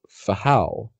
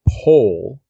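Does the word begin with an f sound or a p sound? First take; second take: F sound; P sound. First: The word begins with an f sound. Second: The word begins with a p sound. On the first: "which he would pronounce Fahal in Hebrew" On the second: "I'm going to pronounce them as far as OBRY"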